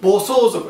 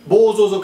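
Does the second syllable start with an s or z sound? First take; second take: s; z. First: The second syllable starts with an s sound. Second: The second syllable starts with a z sound. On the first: The speaker calls it right. "the so is wrong" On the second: The speaker calls it wrong. "I always pronounce that wrong"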